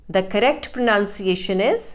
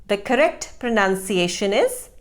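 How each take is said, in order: The two takes are said the same way.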